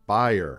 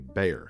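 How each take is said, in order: First: Bayer is pronounced the German way. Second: Bayer is pronounced the American way. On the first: "as David says it, and as I think they say in Germany" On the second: "for the aspirin brand here in the U S, we say Bayer"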